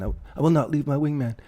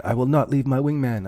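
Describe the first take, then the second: First: Higher, hammed-up movie pilot voice, unlike his own; Top Gun impression. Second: Quoting a movie pilot with a hint of heroic grit, a bit higher; Top Gun quote. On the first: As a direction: ham up the wingman vow like a movie hero. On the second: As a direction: deliver the Top Gun wingman vow with playful mock resolve. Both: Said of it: "a Top Gun wingman".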